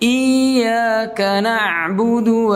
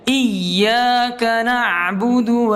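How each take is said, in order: First: The vowel before 'y' is drawn out long. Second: The 'y' sound is pressed and doubled. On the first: The speaker calls it wrong. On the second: The speaker calls it right. "ditekan, ya, ya-nya"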